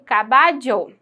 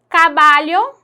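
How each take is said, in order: First: The ll sound is said like a j. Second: The ll sound follows peninsular Spanish. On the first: "mas com o dieísmo eu pronuncio" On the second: "o espanhol europeu, peninsular"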